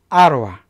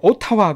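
First: It is said with North American pronunciation. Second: It is said with Korean-style pronunciation. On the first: The speaker calls it right. "이렇게 아로아라고 발음해 주셔야 됩니다. 이게 정확한 발음이에요" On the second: The speaker calls it wrong. "오타와 그러면 진짜 못 알아는 사람이 많아요"

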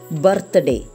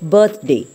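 First: The R sound is strongly pronounced. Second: The R sound is soft or left out. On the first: The speaker calls it wrong. "It's wrong" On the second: The speaker calls it right. "These words should be pronounced as"

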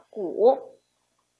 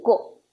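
First: It has a full low dipping third tone. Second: It is short and light with a neutral tone. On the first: "这个字单独念的时候念第三声" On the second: "在词语当中，它要念轻声"

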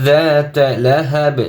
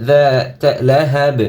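The two takes are said the same way.

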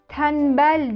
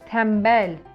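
First: An N sound comes before the B. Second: An M sound comes before the B. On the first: The speaker calls it wrong. "Tembel değil çocuklar. N değil" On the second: The speaker calls it right. "M olmalıydı"

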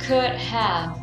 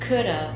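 First: Both words are said fully and separately. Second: The words are contracted into one shortened syllable. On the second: "có thể nói rút gọn là could have"

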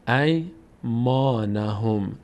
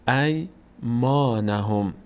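The two takes are said the same way.

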